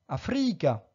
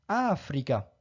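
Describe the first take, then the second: First: The stress is not on the third-from-last syllable. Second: The stress is on the third-from-last syllable. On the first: The speaker calls it wrong. "et non pas Africa" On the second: The speaker calls it right. "mais bien Africa"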